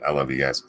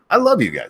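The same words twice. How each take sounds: First: It sounds offhand and dismissive. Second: It sounds warm and sincere.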